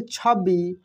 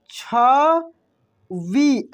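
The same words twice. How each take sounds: First: Said in the usual way. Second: छवि breathed out very slowly; slow whispered demo of छवि. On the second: Shown as a demonstration. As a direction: whisper छवि, stretching each sound. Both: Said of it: "ऐसे छवि".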